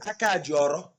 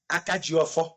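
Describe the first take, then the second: First: The final syllable begins with an r sound. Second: The final syllable begins with an f sound.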